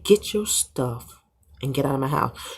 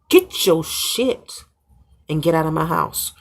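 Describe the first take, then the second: First: It is said in a calm, firm tone. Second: It is said in a mean, angry tone.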